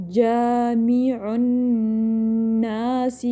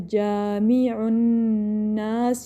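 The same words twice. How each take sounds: First: Slow جامع الناس with held noon and short final "si"; correct recitation. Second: Slow جامع الناس with the closing "si" stretched out; overlong final vowel. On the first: Teacher models it right, جامع الناس ending on a brief "si". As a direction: draw out جامع الناس but release the last vowel early. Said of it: "اس کو لمبا نہیں کھینچنا ہے". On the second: Teacher shows students the mistake, جامع الناس ending in a long "siii". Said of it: "اس طرح لمبا نہیں". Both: Shown as a demonstration.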